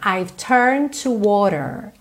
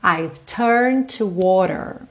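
Both takes have the same delivery.

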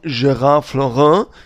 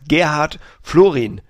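First: The name is pronounced with French sounds. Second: The name is pronounced with German sounds. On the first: The man is French. The speaker calls it right. "Höchstwahrscheinlich ist es ein Franzose, der wird dann ausgesprochen" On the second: The man is German. The speaker calls it wrong. "Das ist ein Deutscher und der heißt Gerhard Florin"

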